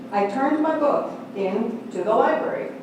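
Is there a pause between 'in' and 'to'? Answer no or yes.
yes. There is a small pause between 'in' and 'to'. The book was returned to the library. "Two words"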